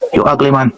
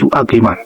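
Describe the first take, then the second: First: It is said in a Jamaican patois accent. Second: It is said in a standard English accent.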